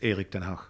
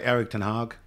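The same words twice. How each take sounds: First: The name is said with a Dutch pronunciation. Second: The name is said with an English pronunciation. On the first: This is how the name really sounds. The speaker calls it right. "but it's" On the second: This is how locals say it. The speaker calls it wrong. "Here they would say"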